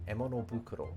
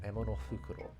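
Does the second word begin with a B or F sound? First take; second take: B; F. First: The second word begins with a voiced b sound. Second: The second word begins with a breathy f sound. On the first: "I'm going to say it as Bukuro" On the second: "Fukuro is a bag"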